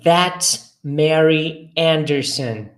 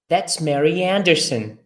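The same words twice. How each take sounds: First: It is said at a normal speed. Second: It is said a bit faster.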